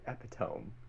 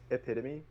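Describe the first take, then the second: First: The final e is silent, rhyming with home. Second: The final e is pronounced as a syllable. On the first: The speaker calls it wrong. "I used to say epitome because I read it" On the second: The speaker calls it right. "my word was e- epitome"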